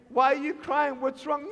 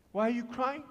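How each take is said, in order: First: Higher, urgent acted question; concerned questioning. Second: Softer second asking, after a pause; gentle questioning. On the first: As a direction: ask in mild alarm what is wrong. First asking of a crying listener. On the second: Retold or imitated. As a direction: ask carefully, coaxing an answer. Asks again after a pause.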